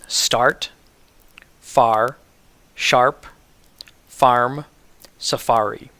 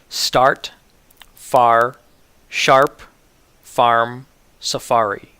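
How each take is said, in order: No difference in how they are said.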